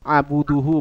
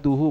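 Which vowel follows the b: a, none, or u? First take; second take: u; a. First: The b is followed by a u vowel. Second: The b is followed by an a vowel. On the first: "bukan baca abuduhu" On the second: "bukan seperti itu"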